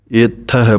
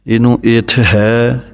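First: ਇਥ ਹੈ with a held ਥ, itth hai; correct reading. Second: ਇਥ ਹੈ dragged slowly as a common mistake; wrong reading. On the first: Teacher gives the correct itth hai reading. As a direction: say ਇਥ ਹੈ with a doubled ਥ. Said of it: "ਇਥ ਹੈ ਪਾਠ ਬੋਲਣਾ ਹੈ". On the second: Teacher shows students a common wrong reading. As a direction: draw out ਇਥ ਹੈ the wrong way. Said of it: "ਗਲਤ ਬੋਲ ਜਾਂਦੇ ਹਨ". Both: Shown as a demonstration.

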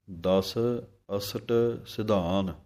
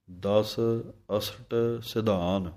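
No difference in how they are said.

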